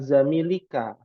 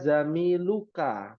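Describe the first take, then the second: First: The vowel before the last syllable is i. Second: The vowel before the last syllable is u. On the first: The speaker calls it wrong. "bukan zamilika" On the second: The speaker calls it right. "ana zamiluka"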